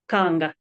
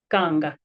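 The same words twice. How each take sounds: Both takes have the same delivery.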